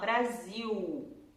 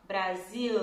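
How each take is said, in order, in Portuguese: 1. O som final é uma vogal parecida com U. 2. O som final é um L claro. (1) "a gente vai falar Brasil" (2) "a gente não vai falar Brasil"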